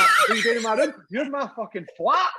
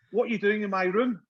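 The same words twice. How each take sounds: First: Loud, high mock outrage; re-enacted incredulous outburst; indignant retort. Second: Higher-pitched mock Italian accent; silly Italian accent through a laugh. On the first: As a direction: throw the question back, louder and higher. Retelling his astonished retort. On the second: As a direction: imitate an Italian footballer's puzzled question. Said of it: "Fucking silly Italian accent".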